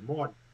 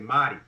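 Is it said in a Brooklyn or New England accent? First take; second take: Brooklyn; New England. First: It is said in a Brooklyn accent. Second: It is said in a New England accent.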